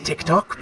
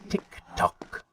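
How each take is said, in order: First: Said in the usual way. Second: Tick-tock whispered, softer and breathy; Tick-tock as a sly whisper; whispered taunt. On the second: Acted. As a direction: hiss out Tick-tock quietly.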